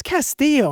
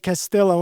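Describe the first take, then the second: First: Castillo with the double L as a y, cas-TEE-yo; "Castillo" the Spanish way, no L. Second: Castillo with the double L said as an L, cas-TIL-oh; "Castillo" with English L sounds; her way. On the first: Host correcting the guest's pen name, Spanish y sound. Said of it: "I think it's Castillo". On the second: Host quoting how the guest says her pen name, L sounded. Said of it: "She pronounced it Castillo". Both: Shown as a demonstration.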